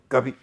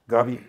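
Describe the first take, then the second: Both takes have the same delivery.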